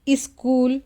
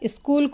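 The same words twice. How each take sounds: First: An extra vowel is added at the start. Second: No extra vowel is added. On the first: The speaker calls it wrong. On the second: The speaker calls it right.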